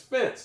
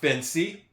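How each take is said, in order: First: The word ends without any extra vowel sound. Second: An extra vowel sound is said at the end. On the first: The speaker calls it right. "the E at the end is silent" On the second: The speaker calls it wrong. "It's not fancy"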